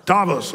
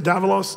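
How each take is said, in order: First: "Davos" in two syllables, DAH-vos; corrected pronunciation. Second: "Davos" fumbled with an extra middle syllable, like DAV-a-los; mispronounced. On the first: Speaker correcting the town's name, "Davos" said DAH-vos in two syllables. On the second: Speaker unsure of the town's name, "Davos" mispronounced as DAV-a-los. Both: Real, not acted. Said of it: "I always say it wrong".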